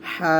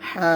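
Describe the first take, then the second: Both takes have the same delivery.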